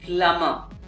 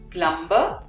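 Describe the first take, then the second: First: No b sound is heard after the m. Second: A b sound is heard after the m. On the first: The speaker calls it right. "the B remains silent in this word" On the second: The speaker calls it wrong.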